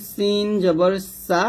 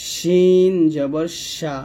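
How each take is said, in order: First: সিন with a clear thin s; hissed sin. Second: Slow, long শিন with a full sh; mid-tongue to palate on শিন, drawn out; hushing shin. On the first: Teacher contrasting sin with shin, hissed sin. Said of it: "তাহলে এটা হবে". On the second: Teacher contrasting shin with sin, hushing shin. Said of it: "আর এটা হবে". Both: Shown as a demonstration.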